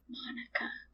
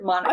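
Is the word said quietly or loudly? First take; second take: quietly; loudly. First: It is said at normal, quieter volume. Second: It is said more loudly.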